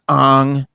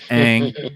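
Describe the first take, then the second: First: The vowel sounds like the o in song. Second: The vowel sounds like the a in cat. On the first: The speaker calls it wrong. "not Ong" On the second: The speaker calls it right. "it's Aang"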